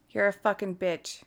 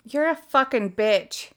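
First: Quiet repeat. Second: Insulting voice assistant. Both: Real, not acted. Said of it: "Your language".

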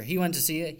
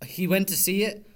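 First: Said in the usual way. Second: Went rising and louder; stress on went. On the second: Shown as a demonstration. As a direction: lean hard on went.

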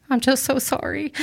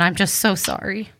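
First: Higher, tearful voice on the edge of crying; fighting back real tears; voice breaking. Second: Said in the usual way. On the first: Real, not acted. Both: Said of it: "I was gonna try not to cry".

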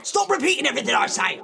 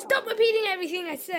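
First: Very fast, high, loud annoyed outburst. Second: Fast, level cheeky echo; copycat mimicry. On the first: Acted. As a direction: rattle it off in exasperation. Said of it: "making me really annoyed". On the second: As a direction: parrot it back calmly.

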